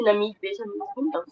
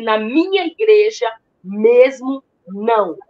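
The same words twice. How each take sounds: First: Said in the usual way. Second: Slow, loud mock yell at her; half-acted shout, each word dragged out; retold shout. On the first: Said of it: "Aí ele falou assim". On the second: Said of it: "Ele gritou comigo".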